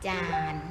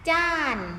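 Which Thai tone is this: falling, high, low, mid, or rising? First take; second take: low; falling. First: The syllable is said on a low tone. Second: The syllable is said on a falling tone.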